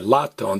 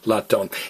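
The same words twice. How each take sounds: First: The stress is on the first syllable. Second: The stress is on the last syllable. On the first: The speaker calls it wrong. "don't stress the next to last vowel. Don't say latón" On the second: The speaker calls it right. "stress me"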